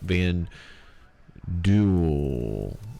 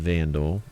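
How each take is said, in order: First: The name ends with a sound like duel. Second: The name ends like the word vandal. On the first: The speaker calls it right. "actually pronounce it" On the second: The speaker calls it wrong. "not the Vandal"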